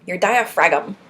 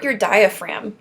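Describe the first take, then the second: First: "diaphragm" said as dia-FRAG-um; joke mispronunciation. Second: Said in the usual way. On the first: Pretend. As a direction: sound the silent g in "diaphragm", playfully. Jokey sounded-g version of diaphragm.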